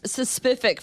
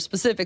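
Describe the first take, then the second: First: It begins with an extra 'sus' syllable. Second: It begins directly with the 'sp' sound. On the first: The speaker calls it wrong. "I said it's suspific for so long" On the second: The speaker calls it right. "until I said it right"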